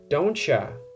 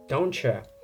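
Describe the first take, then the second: First: The words blend into one reduced 'dontcha' sound. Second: The same.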